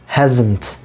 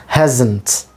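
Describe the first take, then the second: No difference in how they are said.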